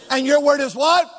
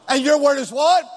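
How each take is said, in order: Both takes have the same delivery.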